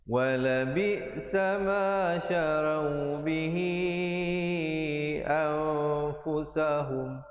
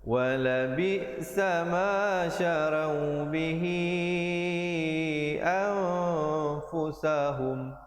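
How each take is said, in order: Both takes have the same delivery.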